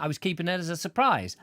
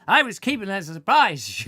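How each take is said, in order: First: Said in the usual way. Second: Louder, higher "I was keeping that as a surprise", playfully put out; mock indignation. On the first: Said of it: "plain first take". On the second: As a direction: act huffy that the surprise is spoiled. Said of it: "You ruined my surprise".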